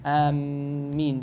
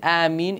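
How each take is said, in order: First: The m is doubled and held longer. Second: The first vowel is long; the m is single. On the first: It changes the meaning of the word. The speaker calls it wrong. "The only thing that's not allowed is آمين, the shadda on the meme" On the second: It asks for the prayer to be answered. The speaker calls it right. "if you do mad on the alif, fine"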